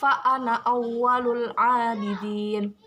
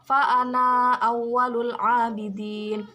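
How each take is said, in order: First: The final vowel of 'ana' is short. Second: The final vowel of 'ana' is long. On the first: "Tapi ini dibaca pendek" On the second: "Jika dibaca normal"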